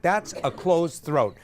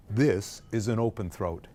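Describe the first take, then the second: First: Slow, tight-throated demonstration; closed-throat voice. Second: Low, slow chest voice with open throat. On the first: Teacher contrasts for the choir, closed-throat voice. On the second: Teacher contrasts for the choir, low open-throat voice. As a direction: open the throat and drop the pitch. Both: Shown as a demonstration.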